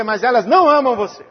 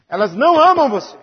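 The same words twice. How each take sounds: First: Não punched with a falling tune; stress on não. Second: Amam leaned on with a falling tune; stress on amam. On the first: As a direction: hit the word não. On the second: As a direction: hit the word amam. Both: Real, not acted. Repeats line, stress shifts.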